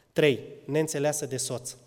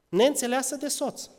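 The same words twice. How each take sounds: First: Said in the usual way. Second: Neînțeleasă pitched much higher, stressed; emphatic repeat. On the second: Real, not acted. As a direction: hammer the word neînțeleasă home. Repeated point, raised. (accent puternic pe neînțeleasă, mult mai sus)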